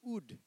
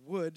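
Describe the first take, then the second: First: The word starts without any w sound. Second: The word starts with a clear w sound. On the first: The speaker calls it wrong. "she used to go ood" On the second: The speaker calls it right. "instead of saying would"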